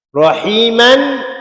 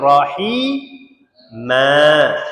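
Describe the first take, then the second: First: The word ends with an n sound. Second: The word ends on a long vowel. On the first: The reading continues without a stop. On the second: The reader stops at this word.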